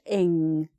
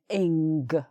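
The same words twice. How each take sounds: First: It ends on the ng sound, no G. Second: It ends with an audible hard G sound. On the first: The speaker calls it right. "You can stop before that hard G sound" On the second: The speaker calls it wrong. "do a sort of hard G sound at the end, like"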